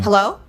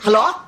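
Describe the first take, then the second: First: It is said like the host mom's native English. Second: It is said with a Thai accent.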